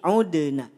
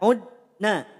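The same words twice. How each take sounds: First: The d is released with a small bounce. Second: The d is stopped flat without a bounce. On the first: The speaker calls it right. "qalqalah dibaca memantul atau pantulkan" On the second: The speaker calls it wrong. "tidak udna"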